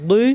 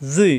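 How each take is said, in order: First: "দুই" with tongue's back edge on upper molars; thick, dark d in "দুই"; heavy Arabic dad. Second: "জুই" buzzed with tongue tip at the teeth's edge; heavy voiced fricative in "জুই"; thick za. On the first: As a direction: press "দুই" from the side of the tongue. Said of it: "জিহ্বার গোড়ার কিনারা". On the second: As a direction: keep "জুই" dark and full. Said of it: "জিহ্বার আগা দাঁতের আগায়". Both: Shown as a demonstration.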